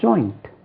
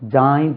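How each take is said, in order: First: The vowel glides like 'oy'. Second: The vowel is a plain long 'ah'. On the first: The speaker calls it right. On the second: The speaker calls it wrong.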